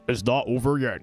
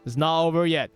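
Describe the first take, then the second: First: It is said in a dramatic announcer voice. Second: It is said in an ordinary speaking voice.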